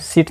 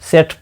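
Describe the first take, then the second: First: The vowel sounds like the 'i' in bit. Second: The vowel sounds like the 'e' in bet. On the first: The speaker calls it wrong. "सिट नहीं" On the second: The speaker calls it right. "सेट pronounce करेंगे"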